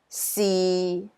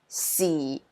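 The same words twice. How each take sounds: First: It is said with Cantonese tone six. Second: It is said with Cantonese tone four.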